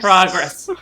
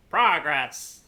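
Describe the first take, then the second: First: Loud. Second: Said in the usual way. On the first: Real, not acted. Repeating the focus word.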